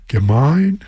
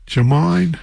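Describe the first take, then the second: First: Gemine with a hard G as in get, questioning rise; slow, unsure Gemine with hard G; hard G pronunciation. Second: Gemine with a soft G like a J, higher; unsure, higher Gemine starting with J; soft G pronunciation. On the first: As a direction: try Gemine as "guh-MINE?". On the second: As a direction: try Gemine as "juh-MINE?". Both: Real, not acted. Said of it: "not sure how to pronounce".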